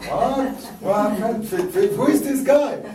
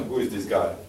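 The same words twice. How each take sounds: First: High, loud incredulous exclamations in French-flavored English; American listeners stunned, high and loud; mock astonishment. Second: Said in the usual way. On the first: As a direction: play shocked listeners hearing the French guy. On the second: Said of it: "No, it was not".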